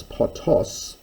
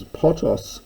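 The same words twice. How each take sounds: First: Potos with the stress on the second syllable, po-TOS, said slowly; accent on second syllable. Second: Potos with the stress on the first syllable, PO-tos; accent on first syllable. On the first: Teacher showing students potos stressed on its second syllable. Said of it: "with the accent on the second syllable". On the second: Teacher showing students potos stressed on its first syllable. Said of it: "with the accent on the first syllable". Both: Shown as a demonstration.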